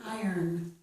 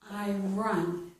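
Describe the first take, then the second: First: The word sounds like 'I earn', with an er ending. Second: The word sounds like 'I run', with a clear r. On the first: The speaker calls it right. "It's I earn" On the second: The speaker calls it wrong. "It's not I run"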